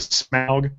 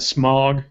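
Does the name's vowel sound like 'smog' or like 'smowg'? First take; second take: smowg; smog. First: The vowel is an 'ow' sound. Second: The vowel is a short 'o' sound. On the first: The speaker calls it right. "correct Tolkien pronunciation" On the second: The speaker calls it wrong.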